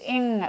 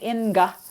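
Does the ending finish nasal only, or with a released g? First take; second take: nasal only; released g. First: It ends on a velar nasal, no released g. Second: A hard g is released after the nasal. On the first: The speaker calls it right. "which is what we call a velar nasal" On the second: The speaker calls it wrong. "You don't say inga"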